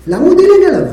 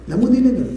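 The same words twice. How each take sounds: First: Higher, louder, punching דילג; emphatic question. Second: Said in the usual way. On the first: Shown as a demonstration. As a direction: demand it with force on דילג. Teacher poses the question emphatically.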